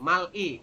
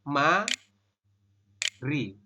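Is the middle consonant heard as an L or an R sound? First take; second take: L; R. First: The middle consonant sounds like a clear L. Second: The middle consonant sounds like a flapped R. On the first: The speaker calls it wrong. "secara tulisan Anda akan membacanya begini" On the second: The speaker calls it right. "Anda membacanya seperti ini"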